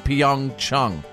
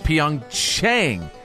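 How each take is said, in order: First: The second syllable has an open 'ah' vowel. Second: The second syllable has a different, non-'ah' vowel. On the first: This is how local speakers say it. The speaker calls it right. "it's supposed to be Pyeongchang" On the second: This is how the broadcaster says it. The speaker calls it wrong. "But NBC says Pyeongchang"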